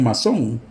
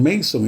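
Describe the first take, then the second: First: The name is pronounced as in Spanish. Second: The name is pronounced as in English. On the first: This is how people in another country said it. "ellos decían masón" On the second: This is how people here say English names. "ellos no decían Mason"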